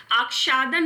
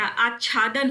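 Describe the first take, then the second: First: आच्छादन with 'ksh' in the middle; wrong pronunciation. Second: आच्छादन with doubled chh; correct pronunciation. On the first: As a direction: say आच्छादन as aak-shaa-dan. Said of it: "आच्छादन नहीं होता". (आच्छादन को 'आक्षादन' जैसा) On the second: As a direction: say आच्छादन as aach-chhaa-dan. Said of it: "आच्छादन होता है". (आच्छादन में 'च्छ' साफ़) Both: Shown as a demonstration.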